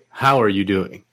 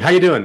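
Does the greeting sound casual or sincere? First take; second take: sincere; casual. First: It is a slow, earnest, sincere question. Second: It is a quick, offhand casual greeting.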